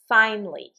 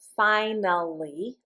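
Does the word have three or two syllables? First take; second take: two; three. First: The word is said with two syllables. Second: The word is said with three syllables. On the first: "we can say it with just two syllables" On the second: "we can say this word with three syllables"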